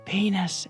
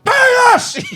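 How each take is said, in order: First: The word is said quietly. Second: The word is said loudly.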